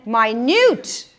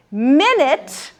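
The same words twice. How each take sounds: First: MINUTE said slowly as my-NUTE; second-syllable stress. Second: MINUTE said slowly as MIN-it; first-syllable stress. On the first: Teacher contrasts meanings for students, minute stressed last. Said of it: "syllable to the second". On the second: Teacher contrasts meanings for students, minute stressed first. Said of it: "change the emphasis from the first". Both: Shown as a demonstration.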